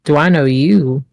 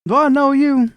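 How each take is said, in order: First: Eye him and ask it back with doubt; suspicious squint. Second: Much higher and louder, suspicious; Cornbread's high voice. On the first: Olive squints and asks back suspiciously. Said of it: "Squint suspiciously". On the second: Cornbread challenges Olive in a high, loud voice. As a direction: demand it in a squeaky, loud voice. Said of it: "he says". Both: Acted.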